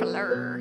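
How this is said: The name is said with a French accent.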